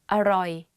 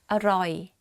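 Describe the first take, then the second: The two takes are said the same way.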